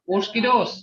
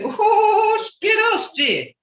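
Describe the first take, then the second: First: It is said in a casual, plain tone. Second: It is said in an emphatic, exclaiming tone.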